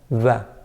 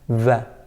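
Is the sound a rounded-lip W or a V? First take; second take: V; V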